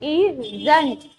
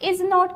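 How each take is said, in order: First: It is said as one short contracted word. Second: It is said as two full separate words. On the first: "आप इसको pronounce कर सकते हैं इजंट" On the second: "इज नॉट की बजाय"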